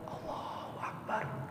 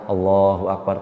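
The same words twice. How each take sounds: First: It is said in a quiet whisper. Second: It is said in a loud, full voice.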